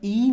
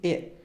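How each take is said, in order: First: The vowel is a long close 'ee' sound. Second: The vowel is a mid 'eh' sound. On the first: The speaker calls it wrong. "این ای نمیگیم" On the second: The speaker calls it right. "این نیست، ا"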